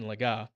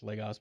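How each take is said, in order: First: The name is said with a French pronunciation. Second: The name is said with an English pronunciation. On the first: "we'll go the French pronunciation" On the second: "it's Legos"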